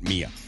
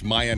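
First: The first syllable sounds like 'me'. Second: The first syllable sounds like 'my'. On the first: The speaker calls it wrong. "not Mia" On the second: The speaker calls it right. "it's Maya"

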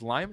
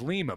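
First: The first vowel sounds like 'eye'. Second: The first vowel sounds like 'ee'. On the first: "He says it's with an I, not an E" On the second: "I thought it was Lima"

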